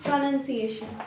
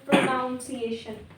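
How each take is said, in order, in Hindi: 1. दूसरा अक्षर 'nun' जैसा सुनाई देता है। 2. दूसरा अक्षर 'noun' जैसा सुनाई देता है। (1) "उसका प्रोनाउंसिएशन is प्रोनाउंसिएशन" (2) "not प्रोनाउंसिएशन"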